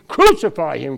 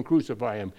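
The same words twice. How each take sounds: First: Loud, high mock crowd shout; retold mob scream. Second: Said in the usual way. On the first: Preacher voicing the crowd at the crucifixion, retold scream. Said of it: "They didn't have to scream".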